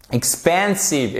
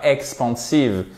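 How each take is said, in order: First: EXPANSIVE with short i start, stressed middle; slow model EXPANSIVE, weight on second syllable; correct English pronunciation. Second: EXPANSIVE with French nasal-style AN vowel; wrong French pronunciation. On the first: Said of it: "l'accent tonique ici". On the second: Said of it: "et pas expansive". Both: Shown as a demonstration.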